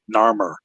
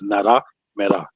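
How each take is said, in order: First: The name is said with two syllables. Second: The name is said with four syllables. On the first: This is how outsiders say the African name. The speaker calls it wrong. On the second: This is how speakers of the African language say it. The speaker calls it right. "how they pronounce it is Nara Mera"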